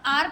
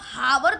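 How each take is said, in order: First: The word starts directly with a vowel sound. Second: The word starts with a clear h sound. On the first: The speaker calls it right. "आप आर पढ़ते हो" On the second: The speaker calls it wrong. "आप हावर तो नहीं पढ़ते हो"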